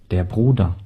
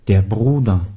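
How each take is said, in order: Both takes have the same delivery.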